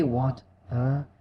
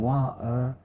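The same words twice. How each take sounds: First: "wat-er" with a crisply released T; careful British "wat-er", T fully pronounced. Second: "wa-er" with the T left out; dropped T. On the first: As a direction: split "wat-er" and sound the T clearly. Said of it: "That crisp T". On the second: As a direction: swallow the T in "wa-er", leaving a gap mid-word. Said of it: "instead of saying". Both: Shown as a demonstration.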